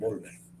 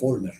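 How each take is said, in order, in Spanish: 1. El primer sonido es una b. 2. El primer sonido es una f. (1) "no se dicen Volver" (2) "ellos se dicen a sí mismos Volmer"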